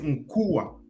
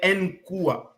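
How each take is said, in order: First: The initial N blends into the syllable. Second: The initial N sounds separate from the syllable. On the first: The speaker calls it right. "mas lê-se Nkua" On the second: The speaker calls it wrong. "um português vai ler Nkua"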